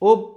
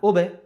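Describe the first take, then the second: First: The final b is stopped flat with no bounce. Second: The final b is released with an echoing bounce. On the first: The speaker calls it wrong. "উব হবে না" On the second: The speaker calls it right. "কলকলা হরফ"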